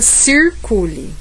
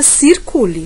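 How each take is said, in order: First: It is said in a São Paulo interior accent. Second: It is said in a São Paulo city accent. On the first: "No interior paulista" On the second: "Na capital paulista"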